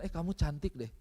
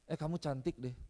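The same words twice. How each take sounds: First: It is said with lively expression. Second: It is said flatly, without expression.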